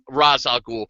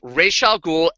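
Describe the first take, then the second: First: The first word sounds like 'Raz'. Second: The first word does not sound like 'Raz'. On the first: The speaker calls it wrong. "I hated that the movies... call him Ra's al Ghul" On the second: The speaker calls it right. "No, it's Ra's al Ghul"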